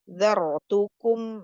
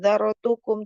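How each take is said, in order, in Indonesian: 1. Kata itu diucapkan dengan lambat dan utuh. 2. Kata itu diucapkan terlalu cepat. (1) "Jangan terburu-buru" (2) "terlalu cepat"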